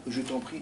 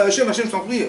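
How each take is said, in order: First: Softly spoken je t'en prie, no cry; a hushed prayer je t'en prie; quiet plea. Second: High, loud pleading cry of Hachem, je t'en prie; a desperate loud cry of Hachem, je t'en prie; crying out to God. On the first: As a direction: say je t'en prie gently, almost to yourself. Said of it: "on peut pas dire à Hachem". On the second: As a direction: shout the plea Hachem, je t'en prie up to the sky. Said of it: "Pourquoi tu cries". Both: Shown as a demonstration.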